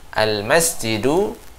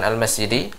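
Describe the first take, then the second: First: The word ends in a 'u' vowel. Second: The word ends in an 'i' vowel. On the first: The speaker calls it right. "di sini harokatnya adalah dhamma" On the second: The speaker calls it wrong. "bukan al-masjidi"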